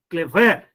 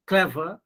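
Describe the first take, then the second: First: "clever" with the second syllable punched loud, cle-VER; mis-stress "clever" on "ver"; wrong final stress. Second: "clever" as CLE-ver, first syllable stressed. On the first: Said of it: "No, not like that". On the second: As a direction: model "clever" correctly with a light "ver". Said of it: "you are giving stress on first syllable". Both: Shown as a demonstration.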